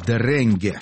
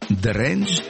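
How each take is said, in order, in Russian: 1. Произносится с конечным гласным, по-датски. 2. Произносится как один слог, по-английски. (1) "а если по-датски, то это будет «дренге»" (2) "Если по-английски, то это будет «дренж»"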